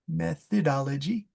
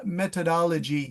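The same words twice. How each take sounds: First: The middle consonant is a soft 'th' sound. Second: The middle consonant is a plain 't' sound. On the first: The speaker calls it right. "let's try to get that T H, that methodology" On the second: The speaker calls it wrong. "So the Germans say meta, meta, methodology"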